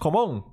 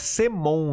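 First: The name begins like the word 'come'. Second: The name begins with the letter sound 'see'. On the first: "que muita gente pronuncia Common" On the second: "é Semon o nome da empresa"

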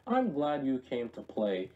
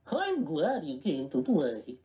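First: It is said in the speaker's normal voice. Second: It is said in a put-on cartoon character voice.

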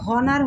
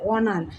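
First: The word starts with an audible h sound. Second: The word starts directly with a vowel sound. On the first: The speaker calls it wrong. "এটা কিন্তু হনার হচ্ছে না" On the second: The speaker calls it right. "অনার ভাওয়েলের অ ধ্বনি আসতেছে"

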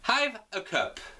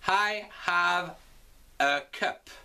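First: I and have are contracted into one syllable. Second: I and have are said as two full words. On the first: "On va contracter I et have" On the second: "On va donc l'écrire"

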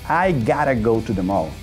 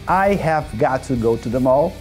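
First: 'Have got to' is reduced to 'gotta'. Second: Every word is said in full. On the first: The speaker calls it right. "de forma abreviada. Tá vendo como soa mais natural?" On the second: The speaker calls it wrong. "você pode falar assim"

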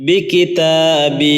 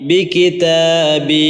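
No difference in how they are said.

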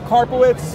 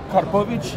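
First: The name is said with an English pronunciation. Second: The name is said with a Polish pronunciation.

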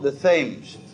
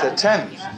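First: The name is said the American way. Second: The name is said the English way. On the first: The speaker calls it wrong. "it is not the Thames" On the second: The speaker calls it right. "Please, it's the Thames"

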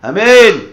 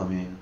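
First: The word is said with strong emotion. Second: The word is said flatly, without feeling. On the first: The speaker calls it right. "רגש, ... ככה עונה" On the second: The speaker calls it wrong. "לא אמן"

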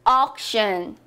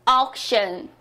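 No difference in how they are said.

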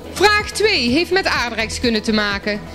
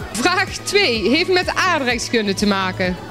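The two takes are said the same way.

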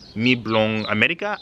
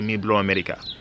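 First: The middle word is the full form blong. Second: The middle word is shortened to blo. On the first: "If I were to say like" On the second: "I would say"

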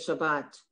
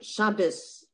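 First: The word ends with a T sound. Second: The word ends with an S sound. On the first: "instead of Shabbat"

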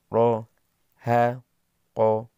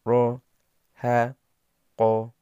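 The two takes are said the same way.

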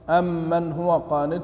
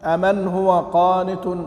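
First: The m in the first word is long and doubled. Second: The m in the first word is short and single. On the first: "وقرأ غيرهم" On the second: "كيف بالتخفيف؟"

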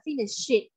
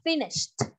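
First: The ending is not a t sound. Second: The ending is a t sound. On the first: The speaker calls it wrong. "nó không phải là finished" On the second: The speaker calls it right. "mà nó là finished. Âm đuôi của nó sẽ là âm th th"

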